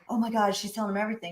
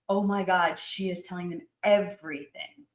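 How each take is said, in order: First: It sounds worried and anxious. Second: It sounds delighted and gleeful.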